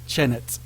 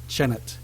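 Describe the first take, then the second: First: The final t syllable is sounded once. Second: The final t syllable is sounded once.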